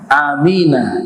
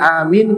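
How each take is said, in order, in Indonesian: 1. Kata ini berakhir dengan vokal pendek. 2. Kata ini berakhir dengan konsonan n. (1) "semuanya di akhirnya fathah" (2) "kita bacanya amin karena waqaf"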